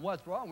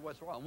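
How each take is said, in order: First: Louder upset players' shout; mock holler. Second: Said in the usual way. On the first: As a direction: throw it back as an upset player. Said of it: "players really upset and they're hollering". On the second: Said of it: "they're hollering".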